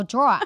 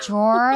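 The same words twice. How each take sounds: First: Drawer slipping into "draw-uh"; botched "drawer", ending in an open "uh"; drawer without final r. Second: Drawer as "dror", one syllable like floor; "drawer" carefully rhymed with floor. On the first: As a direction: drop the r at the end of drawer, New York style. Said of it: "I go". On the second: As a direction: say drawer with a firm final r, like floor. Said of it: "like, floor". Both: Shown as a demonstration.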